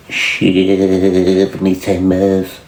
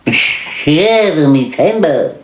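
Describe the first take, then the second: First: Very slow, low sailor drawl; Popeye. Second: High, slow, swooping cartoon sailor; Popeye. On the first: Acted. Asking who says the catchphrase, low drawn-out cartoon voice. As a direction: drag out a long first word like a seadog. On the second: Answering who says that, high exaggerated cartoon sailor voice. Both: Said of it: "Fucking Popeye".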